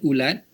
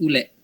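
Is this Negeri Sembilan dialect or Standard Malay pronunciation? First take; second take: Standard Malay; Negeri Sembilan. First: The second vowel is a. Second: The second vowel is e. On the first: "Untuk bahasa Melayu Standard" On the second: "Untuk dialek Negeri Sembilan"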